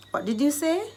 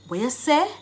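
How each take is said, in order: First: Said in the usual way. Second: Quick Jamaican "weh yuh seh", rising; Jamaican Patois. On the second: Shown as a demonstration. Teacher translating a question for learners, in Jamaican Patois. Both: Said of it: "I've given you the Jamaican dialect".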